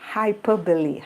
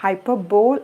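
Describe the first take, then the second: First: The word ends in two syllables, 'buh-lee'. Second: The word ends in a single 'bowl' syllable. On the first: The speaker calls it right. "But we pronounce it as ഹൈപ്പർബലി" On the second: The speaker calls it wrong. "ഹൈപ്പർബോൾ എന്നാണ് എഴുതുന്നത്"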